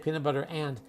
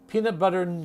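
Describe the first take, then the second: First: The word 'and' is said fully and clearly. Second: The word 'and' is reduced to a short 'n'. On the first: The speaker calls it wrong. "We don't say peanut butter and. We rarely say and" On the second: The speaker calls it right. "We say mm, ... That's how we say it"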